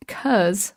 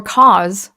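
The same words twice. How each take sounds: First: 'cause as the clipped form of because, rhyming with "buzz"; short "cuz" reading. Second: Cause corrected to rhyme with "laws", hit louder; full-vowel correction. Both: Shown as a demonstration. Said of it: "or cause".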